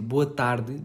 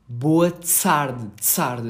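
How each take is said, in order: First: The t in tarde is a plain t. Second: The t in tarde is followed by an s. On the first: "em vez de dizer boa tarde" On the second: "dizia boa tsarde, assim"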